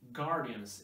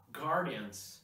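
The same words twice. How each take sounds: First: The g is followed directly by the vowel. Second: The same.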